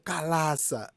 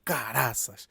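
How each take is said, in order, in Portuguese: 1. A consoante do meio é um som de L. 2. A consoante do meio é um som de R. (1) "os chineses dizem calaça" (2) "aqui tem um termo que nós usamos muito quando está chateado"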